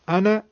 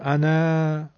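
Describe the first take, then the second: First: The final vowel is kept short. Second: The final vowel is drawn out long. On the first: The speaker calls it right. "کوتاه دارم میگم فتحه رو" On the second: The speaker calls it wrong. "نمیگم انا"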